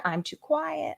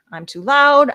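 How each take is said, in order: First: Higher but much softer; said quietly. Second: Higher, louder, as if too loud; said loudly. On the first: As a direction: drop the volume to show the quietness. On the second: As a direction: belt it out to show the loudness. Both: Shown as a demonstration.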